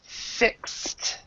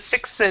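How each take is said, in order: First: "fixed" as one syllable, "fikst"; one-syllable pronunciation. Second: "fixed" split in two, "fix-ed"; two-syllable mispronunciation. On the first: Teacher correcting student's pronunciation, "fixed" as one syllable "fikst". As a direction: end "fixed" on a crisp, voiceless "kst". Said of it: "the pronunciation here is more like this". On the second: Teacher mimicking student's error, "fixed" as two syllables "fix-ed". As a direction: say "fixed" wrongly as "FIK-sed", voicing the ending. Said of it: "instead of fixed, we would say". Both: Shown as a demonstration.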